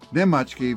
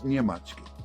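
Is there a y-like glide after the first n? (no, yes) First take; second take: no; yes. First: The first syllable has no y glide. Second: The first syllable has a y glide. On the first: This is the Serbian form. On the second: This is the Bosnian, Croatian and Montenegrin form.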